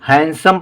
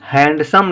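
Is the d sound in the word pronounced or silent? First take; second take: silent; pronounced. First: The d sound is silent. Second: The d sound is clearly pronounced. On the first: The speaker calls it right. "हैंडसम पढ़ा जाएगा" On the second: The speaker calls it wrong. "ये डी silent है, इसमें हैंडसम नहीं पढ़ा जाएगा"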